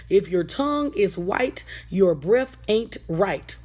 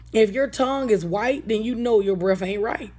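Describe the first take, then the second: First: Teaching a rhyme. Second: Said in the usual way. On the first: Shown as a demonstration. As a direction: recite it like a children's lesson, slowing on the second half. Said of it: "a rhyme that you can teach your children". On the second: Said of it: "I just made a rhyme".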